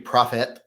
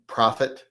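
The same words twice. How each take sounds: First: "profit" ending in a full "et"; second syllable as ET. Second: Said in the usual way. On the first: Shown as a demonstration. Host testing how to say "profit", second syllable like "et". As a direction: say "profit" as PROF-ET, clear short E. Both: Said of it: "Is it supposed to be".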